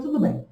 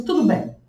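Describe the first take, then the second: First: Mock arrogant, higher and clipped short. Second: Imitating a dismissive doctor, a bit higher; arrogant. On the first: Doctor brushing off her refusal of oxytocin, arrogant. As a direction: say it coldly, like you don't care. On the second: Doctor brushing off her refusal of oxytocin, mock arrogant. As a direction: toss it off, curt and arrogant. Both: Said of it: "super arrogante".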